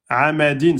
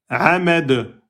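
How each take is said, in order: First: The word ends with an -in sound. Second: The word ends on a bare d sound. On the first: The reader continues without stopping. "ça finit par deux kasraten" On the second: The reader stops on this word. "J'enlève les deux kasras, je mets soukoun"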